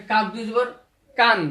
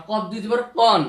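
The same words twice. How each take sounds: First: "কান" with a light k and open aa; thin front k on "কান", vowel kept open. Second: Slow, with "কন" as a rounded "qawn"; heavy, rounded "কন", not thin "kaan"; heavy qaf. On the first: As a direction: say "কান" thinly, as "kaan". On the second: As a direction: say "কন" with a heavy back k and aw vowel. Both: Shown as a demonstration. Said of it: "এটা হবে পাতলা".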